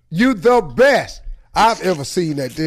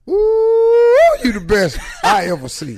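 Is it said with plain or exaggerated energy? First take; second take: plain; exaggerated. First: It is said plainly, with little extra energy. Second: It is said with exaggerated, heightened energy.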